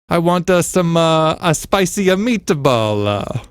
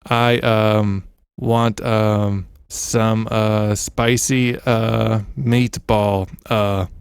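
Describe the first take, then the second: First: It is said with an Italian accent. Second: It is said in an American accent.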